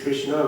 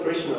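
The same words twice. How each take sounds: First: The final vowel is long. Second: The final vowel is short. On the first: It names a female. "it's Krishna with long A" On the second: It names the male flute player. "it's not Krishna uh, with playing the flute"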